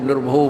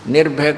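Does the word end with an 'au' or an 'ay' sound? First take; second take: au; ay. First: The word ends with an 'au' sound. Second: The word ends with an 'ay' sound. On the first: "निर्भौ पता नहीं क्या बोलते हैं" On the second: "निर्भय को"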